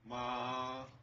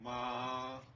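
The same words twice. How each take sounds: First: The pitch stays high and level. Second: The same.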